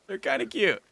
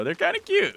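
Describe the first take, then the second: First: Said in the usual way. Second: Cute voice. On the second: Real, not acted. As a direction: coo the word "cute" up high. Repeats the line, first take.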